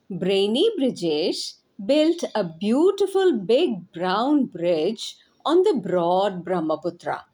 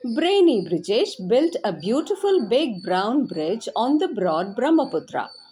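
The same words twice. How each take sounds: First: It is said at a moderate speed. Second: It is said fast.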